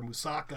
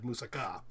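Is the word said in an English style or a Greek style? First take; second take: English; Greek. First: The word is said in an English style. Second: The word is said in a Greek style. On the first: This is the common everyday way to say it. "I don't think it's a crime against language to order moussaka" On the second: This is the way Greek speakers would prefer. "you'd make a lot of Greek waiters a lot happier if you said"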